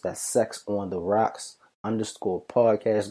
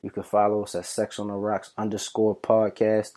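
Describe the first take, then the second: First: Slow, spelled-out handle; slower repeat. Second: Said in the usual way. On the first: Shown as a demonstration. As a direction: say the handle again slowly and clearly.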